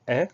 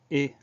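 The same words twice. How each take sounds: First: "est" as an open è; open è sound. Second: "et" as a closed é; closed é sound. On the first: Teacher isolating the sound for spellers, open è. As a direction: say "est" with an open French è, as in pénètre. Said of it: "c'est un accent grave sur le E". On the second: Teacher isolating the sound for spellers, closed é. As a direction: say "et" with a tight French é, as in pénétrer. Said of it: "on a un accent aigu". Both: Shown as a demonstration.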